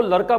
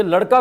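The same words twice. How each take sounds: First: लड़का pronounced "laraka". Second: Said in the usual way. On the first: Retold or imitated. Teacher imitating the girl, लड़का said with r. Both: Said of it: "ये ड के स्थान पर यदि र".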